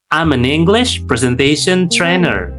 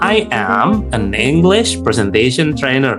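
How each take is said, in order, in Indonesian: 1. I dan am menyatu jadi satu suku kata yang cepat. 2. I dan am diucapkan terpisah dengan jeda. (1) "it's not flow gitu" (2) "itu banyak sekali jeda"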